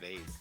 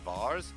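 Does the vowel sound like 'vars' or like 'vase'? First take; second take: vase; vars. First: The vowel is an 'ay' sound. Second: The vowel is a long 'ah' sound. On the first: This is how southerners say it. "the south was vase" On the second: This is how northerners say it. "the north was Vars"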